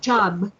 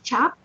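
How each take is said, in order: First: The word begins with j and ends with b. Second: The word begins with ch and ends with p. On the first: The speaker calls it right. "you have to pronounce it like a B" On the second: The speaker calls it wrong. "instead of just chop"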